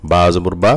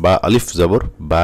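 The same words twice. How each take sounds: First: Final বা short; no stretch. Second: Final বা held long and slow; with stretch. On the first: Teacher drills students on where stretch is absent, short বা. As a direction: stop the last বা quickly. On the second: Teacher drills students on madd, long-held বা. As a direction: draw out the aa of the last বা. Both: Shown as a demonstration. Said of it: "কোথায় টান আছে এবং কোথায় টান নাই".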